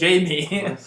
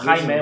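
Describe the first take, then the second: First: The name is pronounced the English way. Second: The name is pronounced the Spanish way. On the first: The speaker uses their own language's pronunciation. The speaker calls it wrong. "you are allowed to pronounce the word how you pronounce in your language. It'll be wrong" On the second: The name keeps its original pronunciation. The speaker calls it right. "it's Gilberto or Jaime"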